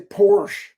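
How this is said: It is said in an American way. The speaker calls it wrong. "we're American. We say Porsche"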